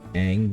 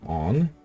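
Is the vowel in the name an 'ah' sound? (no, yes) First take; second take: no; yes. First: The vowel is not an 'ah' sound. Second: The vowel is a long 'ah' sound. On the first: This is how the show pronounces the name. The speaker calls it right. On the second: This is how the film pronounces the name. The speaker calls it wrong.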